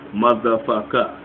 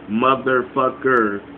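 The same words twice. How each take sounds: First: The final r sound is dropped. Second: The final r sound is pronounced.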